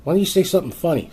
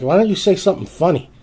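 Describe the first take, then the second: First: Higher and fast, pushing it again; fast, higher exasperated repeat; repeated angry demand. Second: Higher, louder, rising challenge; exasperated higher shout; angry demand. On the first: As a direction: rattle the demand off faster. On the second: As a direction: snap at them to be funny. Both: Retold or imitated. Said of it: "finally I was like".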